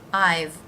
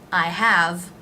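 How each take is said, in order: First: It is one syllable ending in v. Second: It is said as two separate words.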